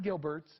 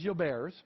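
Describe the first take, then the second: First: The name is said with English pronunciation. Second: The name is said with French pronunciation. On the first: The speaker calls it wrong. "It is not Gilbert's" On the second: The speaker calls it right. "The correct pronunciation is Gilbert's"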